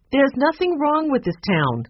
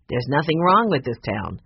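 First: Sharp, higher indignant snap; snapping. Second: Said in the usual way. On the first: Acted. Barbara snapping at Mister Alden about her town. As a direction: bristle in defence of the town. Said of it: "I didn't mean to snap at you". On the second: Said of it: "For the reason you said".

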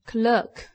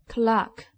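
First: "clerk" with the American "er" vowel, klerk; teacher models "clerk" rhyming with "work"; American pronunciation. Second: "clerk" with the British open "ah" vowel, clark; teacher models "clerk" rhyming with "park"; British pronunciation. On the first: Teacher contrasting accents for class, American "clerk". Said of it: "美国英语". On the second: Teacher contrasting accents for class, British "clerk". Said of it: "英国英语". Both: Shown as a demonstration.

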